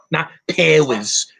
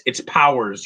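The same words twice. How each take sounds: First: "powers" mangled as "pairs", drawn out slowly; mock the bad "powers" as pay-ers, slow; mocking mispronounced "powers"; mock wrong pronunciation. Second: "powers" said as pow-ers, clear ow sound; "powers" with a plain pow vowel; correct pronunciation. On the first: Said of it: "you freaking idiot". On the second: Shown as a demonstration. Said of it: "Say it right".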